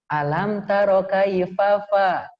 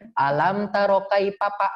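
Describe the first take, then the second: First: The F sounds are pronounced as true F sounds. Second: The F sounds are pronounced as P sounds. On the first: The speaker calls it right. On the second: The speaker calls it wrong. "orang Sunda itu nggak bisa ngomong F"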